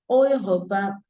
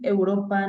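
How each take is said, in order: First: It starts with a German-style vowel sound. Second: It starts with a Spanish-style vowel sound. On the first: The speaker calls it right. "dicen Europa" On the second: The speaker calls it wrong. "Ellos no dicen Europa"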